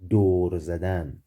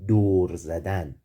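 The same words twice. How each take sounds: The two takes are said the same way.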